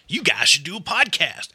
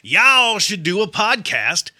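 First: It is said in the speaker's neutral accent. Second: It is said in a Southern twang.

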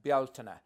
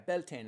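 First: The word is said with an Irish pronunciation. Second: The word is said with an anglicized pronunciation. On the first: "we pronounce that as Bealtaine" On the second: "It's like kind of an anglicized version"

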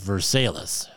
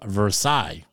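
First: It uses the local Kentucky pronunciation of the name. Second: It uses the outsider's pronunciation of the name. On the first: "he says, it's called Versailles" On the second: "how do I get to Versailles?"

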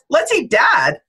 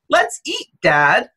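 First: It runs on with no pause. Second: There is a pause after eat.

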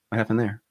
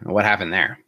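First: The question is said flatly with little emotion. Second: The question is said with strong, charged emotion. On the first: A neutral request to review what happened. The speaker calls it right. "it can have very minimal emotion behind it" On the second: The listener is being blamed or challenged. The speaker calls it wrong. "that little tonality change in my voice changes the entire message"

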